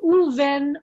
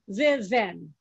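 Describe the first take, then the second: First: It starts with an oo sound, then ven. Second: It starts with veh, then ven. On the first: The speaker calls it right. "the ve turns to an u" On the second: The speaker calls it wrong. "you would never say in Hebrew ve ven"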